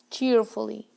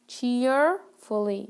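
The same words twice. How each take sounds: First: Said in the usual way. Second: Cheerfully drawn out slowly, syllable by syllable; slow careful model word. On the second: Shown as a demonstration. Teacher slowly models Cheerfully for her students. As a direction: say Cheerfully slowly so the class can copy. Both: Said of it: "It has more than one syllable".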